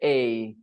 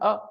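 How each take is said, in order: First: The article has a full stressed vowel. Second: The article has a reduced schwa vowel. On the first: The article is being emphasized. "But when you want to stress it, then you'll say a" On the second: The article is unstressed in normal speech. "when you say it in a sentence, you say a all the time"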